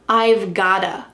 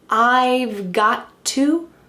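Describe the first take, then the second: First: The words blend together with a d-like sound. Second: The words are said fully with clear t sounds. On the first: "That T is changing to a D" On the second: "Instead of saying I've got to"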